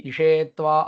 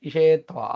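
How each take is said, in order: No difference in how they are said.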